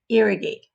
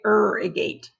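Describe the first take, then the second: First: The first vowel sounds like 'ear'. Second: The first vowel sounds like 'er'. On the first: The speaker calls it right. "we say irrigate. So it has an ear, kind of like ear sound" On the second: The speaker calls it wrong. "We don't say irrigate"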